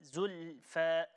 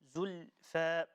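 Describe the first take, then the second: Both takes have the same delivery.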